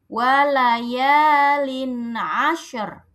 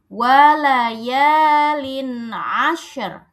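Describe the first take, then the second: Both takes have the same delivery.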